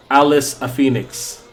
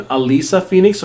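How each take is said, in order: First: "Alice a Phoenix" split into Alice, a, Phoenix; name split as Alice-a. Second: "Alisa Phoenix" as first name and surname; name read as Alisa. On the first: Streamer asking chatter how the name reads, "Alice a Phoenix" as three words. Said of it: "or Alice a Phoenix". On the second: Streamer asking chatter how the name reads, "Alisa Phoenix" as two names. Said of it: "Is your name Alisa Phoenix or". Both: Shown as a demonstration.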